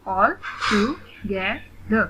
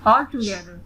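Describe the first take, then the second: First: "all together" very slowly, in four spaced beats; split into syllables. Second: Said in the usual way. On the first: Shown as a demonstration. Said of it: "split in the syllables". ("all together" का हर syllable अलग, धीरे) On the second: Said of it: "read the word".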